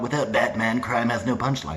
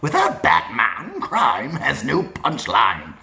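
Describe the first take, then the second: First: The voice stays on one flat pitch. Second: The voice moves up and down in pitch. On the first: The speaker calls it wrong. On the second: The speaker calls it right.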